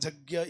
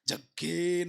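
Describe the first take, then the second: First: The word begins with a 'y' sound. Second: The word begins with a hard 'j' sound. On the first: This is the form other traditions use. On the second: Some regional recitation traditions say it this way.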